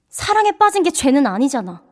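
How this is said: It is said in a serious tone.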